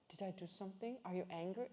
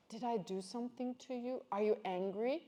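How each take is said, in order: First: Softer, hesitant imitation of mom; timid quiet mom. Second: Said in the usual way. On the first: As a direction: ask in a small timid voice as the anxious mom. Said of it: "she comes into my room". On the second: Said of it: "she says".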